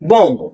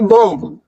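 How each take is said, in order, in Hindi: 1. यह शब्द m ध्वनि पर खत्म होता है। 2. यह शब्द b ध्वनि के साथ खत्म होता है। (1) "आपको सिर्फ बॉम बोलना है" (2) "बॉम्ब नहीं बोलना, लास्ट में बी नहीं बोलना"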